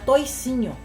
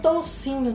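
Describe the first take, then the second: First: The first vowel is pronounced as 'oi'. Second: The first vowel is pronounced as 'ou'. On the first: This is how the old country folk said it. "era toicinho" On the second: This is the standard form. "eles não falavam toucinho também"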